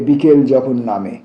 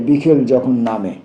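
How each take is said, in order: The two takes are said the same way.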